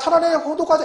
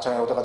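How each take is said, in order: First: It is called out loudly and energetically. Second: It is said softly in a flat drone. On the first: "이렇게 안 해요" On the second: "그냥 둥둥둥 그래"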